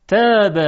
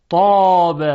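First: تاب with a thin, light t; تاب said with a plain te and a bright a. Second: طاب with a heavy, thick t; with emphatic ta. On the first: Teacher contrasts تاب and طاب for students, light t. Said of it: "با ت دو نقطه". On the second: Teacher contrasts طاب after تاب, heavy emphatic t. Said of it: "طاب با حرف تا". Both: Shown as a demonstration.

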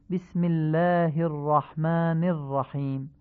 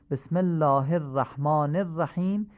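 First: بسم الله الرحمن الرحیم with "bism" and الله as "illaah"; eloquent Arabic. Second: بسم الله الرحمن الرحیم read with Persian vowels, الله as "ellah"; Persian-style reading. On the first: Teacher shows listeners the eloquent Arabic reading. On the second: Teacher shows listeners the less eloquent Persian reading. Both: Shown as a demonstration. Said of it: "خودتون مقایسه کنید و بگید کدام فصیح تر بود".

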